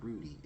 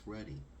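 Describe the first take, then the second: First: The first vowel is long, as in 'rude'. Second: The first vowel is short, as in 'mud'. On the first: The speaker calls it wrong. "not Rudy" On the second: The speaker calls it right. "it's Ruddy"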